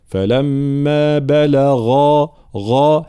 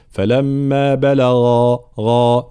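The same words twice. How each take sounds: First: Very slow فلما بلغا with full, heavy غ; correct voiced ghayn. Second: Slow فلما بلغا with under-voiced غ; wrong weak ghayn. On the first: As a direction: sustain a strongly voiced dark غا in بلغا. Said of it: "هكذا يكون صوت الغين". («بلغا» بغين مفخمة مجهورة) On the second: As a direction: weaken the voicing of غا in بلغا. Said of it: "فلا نقول". («بلغا» بغين ناقصة الجهر خطأً) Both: Shown as a demonstration.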